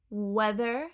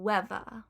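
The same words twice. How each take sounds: First: Said in the usual way. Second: "weather" said "wevva", V for TH; Cockney th-fronting. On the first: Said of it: "weather will become weather". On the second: Shown as a demonstration. Teacher showing the change, Cockney "weather" as "wevva". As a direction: put a V in the middle of "weather". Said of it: "will become weather".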